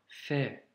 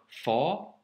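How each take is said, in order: First: The letter is said light, with a brighter vowel. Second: The letter is said heavy, with a darker vowel. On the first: The speaker calls it right. "on la prononce sans emphase" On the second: The speaker calls it wrong. "ce n'est pas un Fa"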